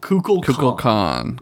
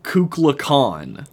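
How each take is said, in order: First: The name sounds like Kukulkan. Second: The name sounds like Kukla Khan. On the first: The speaker calls it right. "It's Kukulkan" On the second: The speaker calls it wrong. "He says... Kukla Khan, like Kubla Khan, but with a K"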